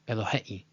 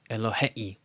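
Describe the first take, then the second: The two takes are said the same way.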